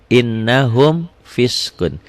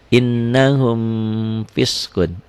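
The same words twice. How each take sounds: Both takes have the same delivery.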